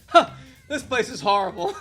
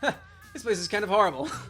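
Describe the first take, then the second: First: It is said in a happy, cheerful tone. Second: It is said in a plain, flat tone.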